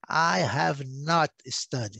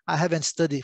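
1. Have e not são falados como palavras separadas. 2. Have e not se juntam e viram haven't. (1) "quando eles quiserem dar uma ênfase maior" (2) "se você quer dizer que não estudou"

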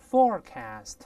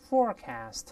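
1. 美式口音，第一个音节有r音。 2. 美式口音，第一个音节有r音。

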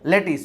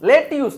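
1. બીજો ઉચ્ચાર 'tis' જેવો સંભળાય છે. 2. બીજો ઉચ્ચાર 'tyus' જેવો સંભળાય છે. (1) "લેટીસ હોય" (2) "લેટ્યુસ નો હોય સાહેબ"

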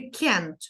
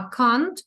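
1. Це сказано з американським акцентом. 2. Це сказано з британським акцентом. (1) "американський варіант" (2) "британський варіант"

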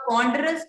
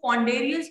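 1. "ponderous" का उच्चारण तीन शब्दांश में होता है। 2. "ponderous" का उच्चारण चार शब्दांश में होता है। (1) "पॉन्डरस को पॉन्डेरियस बोल रहे हो यार" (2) "पॉन्डरस को पॉन्डेरियस बोल रहे हो यार"

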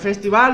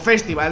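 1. La palabra se pronuncia a la manera española. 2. La palabra se pronuncia a la manera inglesa.

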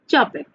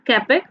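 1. नाम ch ध्वनि से शुरू होता है। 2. नाम k ध्वनि से शुरू होता है। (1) "but it is pronounced as Chapek" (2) "here is the spelling is C-A-P-E-K, means Capek"

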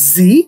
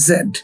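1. অক্ষরটি zee হিসেবে উচ্চারিত হয়। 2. অক্ষরটি zed হিসেবে উচ্চারিত হয়। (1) "আমেরিকানরা বলে হচ্ছে জি" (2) "ব্রিটিশরা বলে হচ্ছে জেড"

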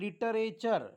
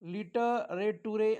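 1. शेवट 'cher' असा म्हटला जातो. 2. शेवट 'too-ray' असा म्हटला जातो. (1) "सहावा शब्द आहे लिटरेचर" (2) "लिटरेटुरे असं काही म्हणू नका"

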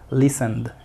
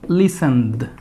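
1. La palabra se dice con fluidez, a un ritmo natural. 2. La palabra está muy sobrearticulada, cada sonido marcado. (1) "Simplemente listened" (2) "Yo lo pronuncio remarcado para que ustedes se den cuenta"

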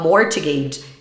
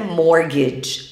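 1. O som do T é pronunciado no meio. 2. O som do T é mudo no meio. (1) "se você falar mortgage, realmente fica muito difícil para um falante nativo te compreender" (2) "a pronúncia correta é mortgage. A gente não pronuncia esse T"

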